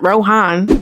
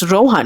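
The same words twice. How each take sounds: First: The name has an anglicized pronunciation. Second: The name has its Indian pronunciation. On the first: The name is mispronounced on purpose. The speaker calls it wrong. "It's not Rohan" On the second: This is how the name is really said. The speaker calls it right. "It's Rohan"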